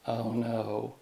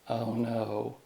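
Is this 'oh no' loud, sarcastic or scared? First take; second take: sarcastic; sarcastic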